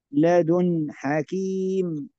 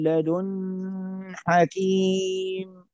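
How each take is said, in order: First: The n sound is short and clear. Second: The n sound is held longer and nasal. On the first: The speaker calls it right. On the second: The speaker calls it wrong.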